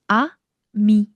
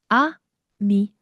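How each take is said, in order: No difference in how they are said.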